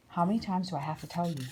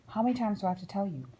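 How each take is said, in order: First: Said in the usual way. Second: Rattled off fast, a parent at the end of their tether; fast exasperated nag. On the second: Acted. A grown-up nagging a child yet again, fast exasperated repeat. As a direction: spit it out quickly, fed up.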